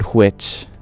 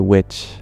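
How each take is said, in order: First: The w is aspirated with a breathy h-sound. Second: The w is plain with no breathy h-sound. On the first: "I never said which" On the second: "I would always say which. ... I wouldn't aspirate the W"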